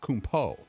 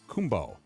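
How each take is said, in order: First: The ending is said with a P sound. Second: The ending is said with a B sound. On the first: The speaker calls it wrong. "not Kumpo" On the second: The speaker calls it right. "the P O is pronounced B O, so the end of the name should be Kumbo"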